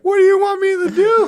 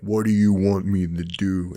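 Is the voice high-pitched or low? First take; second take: high; low. First: It is said in a high-pitched voice. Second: It is said in a lower voice. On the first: The speaker calls it right. "It would have the high pitched voice" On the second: The speaker calls it wrong. "that's not how it would sound"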